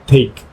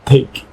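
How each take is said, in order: First: The t has a strong puff of air. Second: The t has a strong puff of air.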